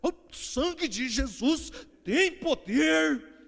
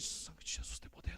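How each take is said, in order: First: It is said heavily, in an exaggerated way. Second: It is said calmly, in a restrained way.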